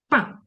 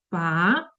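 First: The pitch falls sharply from high. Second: The pitch rises toward the end. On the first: It sounds like scolding someone. "І четвертий. Коли ми кажемо, ругаємося" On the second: It sounds like asking a question. "Другий тон, коли ми нібито запитуємо"

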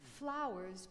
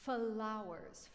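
First: It is said plainly, with no added vowels. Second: Extra schwa vowels are added within the word.

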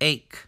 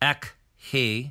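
First: The H is silent, only a K sound. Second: An extra H sound follows the K. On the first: The speaker calls it right. "we say ache" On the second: The speaker calls it wrong. "We don't say ek he"

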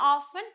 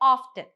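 First: The word is said without a 't' sound. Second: The word is said with a 't' sound. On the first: "ഒന്നുകിൽ ഓഫൺ" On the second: "അല്ലെങ്കിൽ ഓഫ്റ്റൻ"

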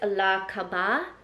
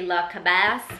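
First: The final S sound is silent. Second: The final S sound is pronounced. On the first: The speaker calls it right. "I believe you don't pronounce the S" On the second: The speaker calls it wrong. "people would want to say La Cabasse, but that's not how you say it"

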